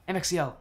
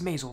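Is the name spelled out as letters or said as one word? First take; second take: letters; one word. First: The name is spelled out letter by letter. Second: The name is said as one word. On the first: The speaker calls it right. "it's actually pronounced letters" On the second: The speaker calls it wrong. "I thought it was Maisel"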